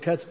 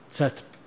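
First: The first sound is a k. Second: The first sound is not a k. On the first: This is the standard form that locals would not recognize. "لو جعلتها كاف" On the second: This is the local dialect form that people recognize. "شو يسمونه؟"

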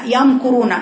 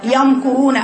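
The two takes are said the same way.

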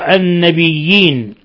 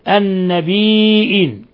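First: A doubled y sound replaces the glottal stop. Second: A glottal stop is pronounced in the middle. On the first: "بالياء الخالصة بياءين أولاهما مشددة مكسورة" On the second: "يقرأ بالهمز"

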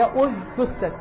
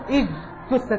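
First: The word begins with an u vowel. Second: The word begins with an i vowel. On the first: The speaker calls it right. "هي أج تستت" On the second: The speaker calls it wrong. "وهذا خطأ"

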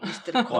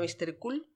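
First: The name's vowel is a long oh sound. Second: The name's vowel is a long oo sound. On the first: The speaker calls it right. "es Mr. Cole" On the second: The speaker calls it wrong. "Hay gente que le llama Mr. Cool. Pero no"

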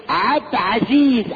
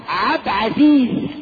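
Both takes have the same delivery.

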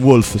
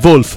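First: The name is pronounced a non-German way. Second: The name is pronounced the German way. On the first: This is how people mistakenly say the name. The speaker calls it wrong. "non Wolf" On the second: This is how the name is really said. The speaker calls it right. "di origini tedesche. Quindi Wolf"

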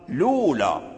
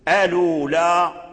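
First: The word begins directly with an l sound. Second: The word begins with a glottal stop and vowel. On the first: "تحذف همزة الوصل فتقول لولا" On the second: "فإذا قلنا ألولا لم نعتد بالنقل"

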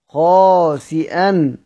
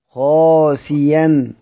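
First: A glottal stop follows the i vowel. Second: A y sound replaces the glottal stop. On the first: This is the reading that keeps the hamza. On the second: This is how it is read when pausing in Hamza's reading.

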